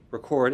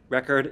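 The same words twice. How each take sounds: First: The stress is on the second syllable. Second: The stress is on the first syllable. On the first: It is a verb. "record is weak strong" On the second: It is a noun. "record is strong weak"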